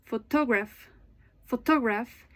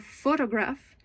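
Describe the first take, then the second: First: PhoTOgraph, stress wrongly on the second syllable; "photograph" with the beat moved onto TO; misplaced stress. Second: PHOtograph, weight on the first syllable; "photograph" with a strong PHO and light ending; correct first-syllable stress. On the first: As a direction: demonstrate "photograph" mis-stressed as pho-TOG-raph. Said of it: "If your stress in, is in wrong place". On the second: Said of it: "instead of photograph". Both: Shown as a demonstration.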